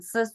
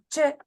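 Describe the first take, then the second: First: The syllable starts with a hissing s sound. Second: The syllable starts with a ch sound. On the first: The speaker calls it wrong. "traten de no hacerlo con s" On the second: The speaker calls it right. "esto suena más che, como Che Guevara"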